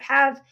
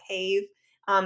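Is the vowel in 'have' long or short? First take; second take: short; long. First: The vowel is short, as usually spoken. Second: The vowel is long, sounded out by spelling rules. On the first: This is how the word is actually said. "instead of have" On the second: This is how the spelling suggests it should sound. "if we were to follow how to pronounce that word, we would call it have"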